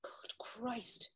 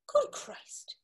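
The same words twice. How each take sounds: First: Faint, hushed whisper sinking into the news; almost no voice, the truth settling in; stunned whisper. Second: Breathless, stunned whisper of disbelief; barely voiced, as if the news knocked the wind out; shocked whisper. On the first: Acted. Alf whispers once he learns Paddy was buried this morning. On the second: Alf whispers on hearing that his friend Paddy is dead.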